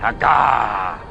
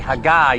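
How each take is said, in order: First: The word is said with a growl. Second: The word is said in a plain voice. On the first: The speaker calls it right. "you say Haggah. It sounds like its meaning" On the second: The speaker calls it wrong. "you don't say Haggah"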